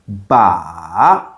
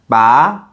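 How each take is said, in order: First: The pitch goes down, then back up. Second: The pitch rises toward the end. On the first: "going down and up" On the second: "that's the second tone"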